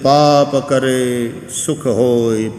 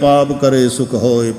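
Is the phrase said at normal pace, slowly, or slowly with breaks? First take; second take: slowly; normal pace. First: It is said slowly, without clear breaks. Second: It is said at a normal, running pace.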